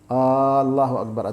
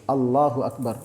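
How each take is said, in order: First: A vowel is drawn out long. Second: The vowels are kept at normal length. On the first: It asks whether God is great. The speaker calls it wrong. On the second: It declares that God is great. The speaker calls it right.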